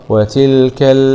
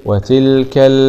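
No difference in how they are said.

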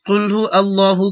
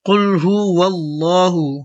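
First: The words are kept apart with no linking sound. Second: A w sound links hu into allahu. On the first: The speaker calls it wrong. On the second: The speaker calls it right.

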